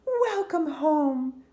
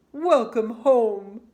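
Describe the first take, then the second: First: Higher, slow, loud mother's welcome; loving mother. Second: Loud, slow father voice; father's welcome. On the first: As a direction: greet her slowly and brightly like a mum. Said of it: "said her mother". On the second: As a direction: boom out a slow welcome as dad. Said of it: "said her father". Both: A narrator's reading.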